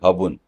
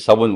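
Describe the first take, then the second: First: The word begins with an h sound. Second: The word begins with an s sound. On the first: "स को उच्चारण वो लोग नहीं करते" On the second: "आप बोलोगे"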